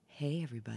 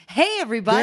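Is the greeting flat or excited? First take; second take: flat; excited. First: The greeting sounds flat and unexcited. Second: The greeting sounds lively and excited.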